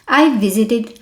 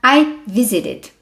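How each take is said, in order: No difference in how they are said.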